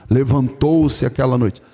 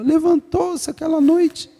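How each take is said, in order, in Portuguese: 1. É dita com uma voz masculina fingida. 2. É dita com uma voz feminina fingida. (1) "Macho fala assim" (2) "E mulher fala"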